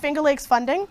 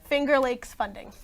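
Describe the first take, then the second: First: It is said at normal, quick speed. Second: It is said slowly and carefully.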